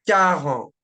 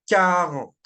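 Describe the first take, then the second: Both takes have the same delivery.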